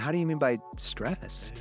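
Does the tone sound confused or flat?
confused. The question sounds puzzled and confused. The speaker calls it right. "if I want to have a confused tone"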